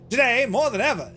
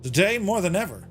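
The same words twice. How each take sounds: First: It is read in a put-on salesman voice. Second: It is read in a plain, ordinary voice.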